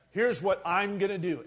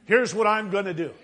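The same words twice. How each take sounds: First: Said in the usual way. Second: Here's what I'm gonna do, declared louder as a firm vow; preacher booming God's vow; emphatic declaration. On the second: Acted. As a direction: proclaim it as God's unbreakable promise. God's covenant speech, third repeat, loudest.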